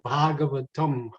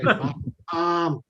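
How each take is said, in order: First: The first vowel is held long. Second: The first vowel is kept short. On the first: The speaker calls it right. "the first vowel is made long" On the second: The speaker calls it wrong. "that makes Sanskrit pundits cringe when you say Bhagavatam"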